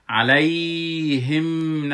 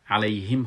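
First: علیهم loud and dragged on "ay" and the m; wrongly stretched sukun. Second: علیهم said short, ending on a closed m; correct sukun. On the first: Teacher shows what to avoid, علیهم drawn out long. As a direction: overstretch علیهم slowly, as the mistake. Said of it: "علیهم نخواندم". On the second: Teacher shows the right reading, علیهم kept short. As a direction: say علیهم without dragging ya or mim. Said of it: "علیهم خواندم". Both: Shown as a demonstration.

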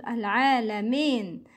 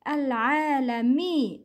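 First: Al-alamin ending like "mayn"; incomplete kasra. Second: Al-alami ending in a pure "mee"; full kasra. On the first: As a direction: open the last vowel of al-alamin to eh. (al-alamin said as alamen) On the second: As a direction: complete the i in Al-alami. (Al-alami with a clear long ee) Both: Shown as a demonstration. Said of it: "It's not al-alamin".

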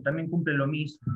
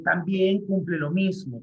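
First: Said in the usual way. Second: Slow dictation. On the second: Shown as a demonstration. Teacher slowly dictating a point to the class. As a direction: dictate it slowly so students can write. Teacher repeats phrase for notes.

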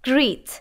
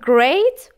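First: "great" turned into "greet"; GREET with EE vowel. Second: "great" said as "grayt"; GREAT with AY vowel. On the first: Teacher contrasts two words for learners, "great" as "greet". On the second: Teacher contrasts two words for learners, "great" as "grayt". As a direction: say "great" with a long ay sound. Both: Shown as a demonstration.

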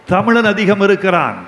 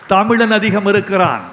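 Both takes have the same delivery.

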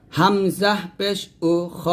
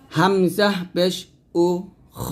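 No difference in how they are said.

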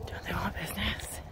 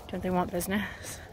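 First: Unvoiced exasperated whisper. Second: Said in the usual way. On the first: Real, not acted. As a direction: whisper the question. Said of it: "repeat as whisper". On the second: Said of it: "first take".

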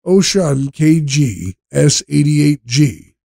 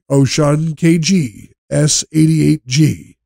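The two takes are said the same way.

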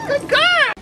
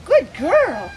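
First: Very high, bright dog praise; squeaky praising a dog. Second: Said in the usual way. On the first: Real, not acted. Praising dog after trick.

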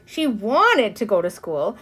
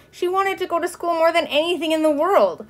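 First: WANTED drawn out and leaned on; earnest narration, WANTED stretched slowly; stress on WANTED. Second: High, insistent narration; heartfelt emphasis, pitched well up; fervent longing. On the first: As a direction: linger slowly on the word wanted. Repeated plea in narrated thought. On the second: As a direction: build the longing at a raised pitch. Repeat heightened, more than anything. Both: A narrator's reading.

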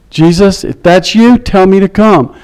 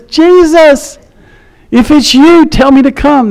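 First: Said in the usual way. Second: High-pitched call, only mildly raised in volume; retold calling out. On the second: Peter calling to Jesus from the boat, imitated yelling out. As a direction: call out as if across water. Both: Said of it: "he yells out and says".

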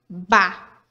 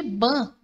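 First: "ba" com A oral, aberto. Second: "ban" com A nasalizado; A nasal. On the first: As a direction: diga "ba" com o A aberto, sem nasalizar. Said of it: "pode ter o som de". ("ba" com som de A aberto) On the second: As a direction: diga "ban" com o A pelo nariz. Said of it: "pode ter o som de ban". ("ban" com som nasal de ã) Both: Shown as a demonstration.

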